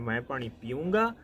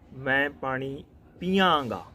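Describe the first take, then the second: First: The verb ends with an 'oonga' sound. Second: The verb ends with a 'yaanga' sound. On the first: This is the local way of speaking. "the way we speak here" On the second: This is how people with another accent say it. "in other accent"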